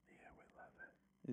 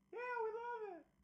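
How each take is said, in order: First: It is said in a whisper. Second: It is said in a high-pitched voice.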